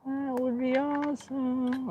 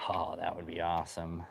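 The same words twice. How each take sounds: First: Very high, slow falsetto; drawn-out high echo, playfully wishful. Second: Said in the usual way. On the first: Pretend. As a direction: stretch it out in a silly high sing-song.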